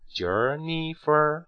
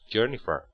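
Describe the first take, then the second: First: The pitch rises on the word. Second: The pitch falls on the word. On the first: It is a yes-no question. "一般疑问句读升调" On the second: It is a statement. "你看降调Jennifer"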